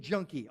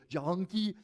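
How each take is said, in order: First: Said in the usual way. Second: "junkie" stretched into three syllables, juh-HUN-kee; three-syllable accented junkie. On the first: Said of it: "although he says it with, like, three syllables". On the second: Retold or imitated. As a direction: imitate an accented "junkie" with an extra breathy h syllable in the middle. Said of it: "he says it with, like, three syllables".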